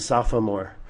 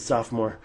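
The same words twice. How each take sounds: First: The word is said with three syllables. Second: The word is said with two syllables. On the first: "I never said sophomore" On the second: "I always said sophomore with two syllables"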